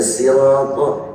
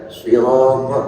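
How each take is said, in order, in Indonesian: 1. Kata ini diawali dengan bunyi s yang biasa dan ringan. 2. Kata ini diawali dengan bunyi s yang berat, emfatik. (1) "ada sin" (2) "ada shad"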